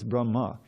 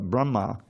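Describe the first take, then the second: First: The final vowel is short. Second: The final vowel is long. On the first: It names the Vedic knowledge. The speaker calls it right. "but no, it's Brahma. ... short A" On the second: It names the creator deity. The speaker calls it wrong. "you might think, oh"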